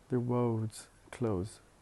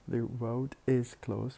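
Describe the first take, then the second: First: The 'is' shrinks to an s sound on 'road'. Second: The word 'is' is said as a full syllable.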